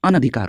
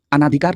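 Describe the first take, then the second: First: अनधिकार with a short na, a-na-dhikaar; correct short vowel. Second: अनाधिकार with a long aa, a-naa-dhikaar; wrong long vowel. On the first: Teacher giving students the right form, अनधिकार with short na. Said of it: "अनधिकार होता है". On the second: Teacher rejecting what students say, अनाधिकार with long naa. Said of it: "अनाधिकार नहीं होता है". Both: Shown as a demonstration.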